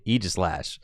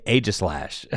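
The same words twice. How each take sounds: First: Aegislash said with an opening EE sound; official pronunciation. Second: Aegislash said with an opening AY sound; mispronounced name. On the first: Streamer correcting chat, official pronunciation of Aegislash with EE. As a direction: say Aegislash as "EE-jis-slash". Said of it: "You have to say Aegislash". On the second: Streamer showing chat what is not allowed, mispronounced name Aegislash with AY. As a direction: say Aegislash as "AY-jis-slash". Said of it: "You cannot just say Aegislash". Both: Shown as a demonstration.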